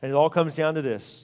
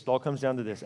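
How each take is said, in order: First: Said in the usual way. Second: Quiet echo. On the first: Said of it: "repeated, second take dropped". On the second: Shown as a demonstration. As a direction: repeat it softer and lower, letting it sink in. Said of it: "repeated, lowered".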